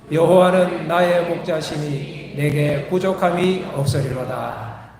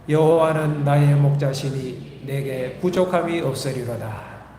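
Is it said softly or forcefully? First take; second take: forcefully; softly. First: It is said forcefully, with strong conviction. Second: It is said softly, without much force.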